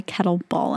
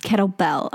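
First: "kettlebell" with the last syllable as "ball"; says "kettle ball". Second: Said in the usual way. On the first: Shown as a demonstration. Admitting a habitual slip to friend, "kettlebell" said as "kettle ball". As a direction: turn the "bell" of kettlebell into "ball". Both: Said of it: "That's incorrect".

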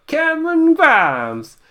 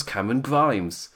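First: High, loud, drawn-out Southern holler; mock Southern wrestler's cry, slow and high; hammed-up Southern accent. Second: Said in the usual way. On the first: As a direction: holler the name in an exaggerated Southern twang. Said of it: "drop the accent". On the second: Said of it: "Sorry, Cameron Grimes!".

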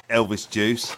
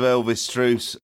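First: Said in the usual way. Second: "Juice" slipped into "Truce", with an R; slip of the tongue. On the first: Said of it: "Freudian slip there". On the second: Real, not acted. Listing his drinks to his mates, slip of the tongue. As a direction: trip on "Juice", slipping an R in after the first sound. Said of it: "There's an R in there".

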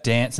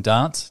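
First: Dance with the vowel of "cat"; flat-vowelled "dance", as in "danss"; dance with short a. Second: Dance said "dahnce"; dance with long ah. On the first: Quizzing co-host on accents, dance with short a. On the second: Quizzing co-host on accents, dance as "dahnce". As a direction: open the vowel of dance to "ah". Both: Shown as a demonstration. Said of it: "What about dance and dance?".

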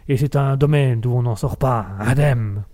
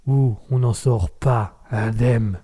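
First: Declaimed alexandrin. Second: Mock ominous. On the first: Pretend. Host declaiming a pompous verse to listeners, mock solemn. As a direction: recite it like a line of classical poetry. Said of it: "Un petit alexandrin au passage". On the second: Dramatic tagline about Raspberry's world.

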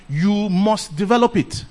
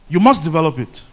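First: "develop" drawn out and weighted, said slowly; slow stress on develop. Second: "must" hit firmly, the rest falling; stress on must. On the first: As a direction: lean on "develop", slow the whole line. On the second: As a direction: punch "must" as a firm command. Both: Real, not acted.

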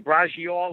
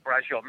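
First: Braciole sounded out stiffly, brah-chee-OH-lay, every vowel said; mock an outsider saying braciole, brah-chee-oh-lay; anglicized mock pronunciation. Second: Braciole said the Italian-American way, brah-ZHOL, final vowel dropped; Italian pronunciation. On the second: Shown as a demonstration. To friends, proud Italian-American braciole. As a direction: say braciole like the family back in Philly, brah-zhol. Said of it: "That's how you say braciole".

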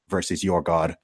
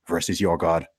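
No difference in how they are said.

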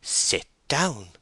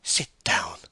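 First: Higher, more emphatic order to sit; sharp insistence with a high-pitched fall; insistent summary command. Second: Curt order to sit; brisk, even-pitched dismissal; summary command. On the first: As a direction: repeat the order, brooking no question. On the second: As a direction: order it firmly, without argument. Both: Acted. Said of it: "saw Bathsheba summarily speaking".

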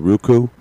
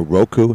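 First: "Roku" with first syllable like "rue"; pronunciation ROO-koo. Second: "Roku" with first syllable like "row"; pronunciation ROH-koo. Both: Shown as a demonstration. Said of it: "How do you say that?".

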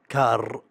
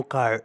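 First: "كار" in a Saudi accent, hard rolled R; loud, Saudi-accented "كار". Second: English-style "كار", as opposed to Saudi-accented; English-accented contrast. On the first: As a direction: say "كار" with a strong Saudi Arabic R. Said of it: "وتتكلم بالأكسنت السعودي". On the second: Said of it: "ما هو ك-، مو كار". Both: Shown as a demonstration.

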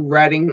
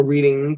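First: "Reading" with a short e, as RED-ing; alternative pronunciation. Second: "Reading" with a long ee, as REED-ing; alternative pronunciation. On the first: Host thanking the town both ways, "Reading" as RED-ing. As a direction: pronounce "Reading" like Redding. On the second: Host thanking the town both ways, "Reading" as REED-ing. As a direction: pronounce "Reading" like the act of reading. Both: Shown as a demonstration. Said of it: "Tell me if I'm saying it wrong".

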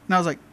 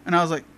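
Both takes have the same delivery.

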